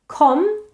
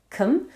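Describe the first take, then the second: First: "com" said with a full, open "o"; full vowel. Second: "cum" said with a short neutral "uh"; reduced schwa vowel. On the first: Teacher isolating first syllable of competition, "com" with a full "o". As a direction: give "com" its whole "o" vowel. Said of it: "now has a full vowel". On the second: Teacher isolating first syllable of compete, "cum" with a schwa. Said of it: "has a schwa in the first syllable". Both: Shown as a demonstration.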